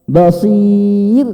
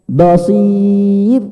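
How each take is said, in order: Both takes have the same delivery.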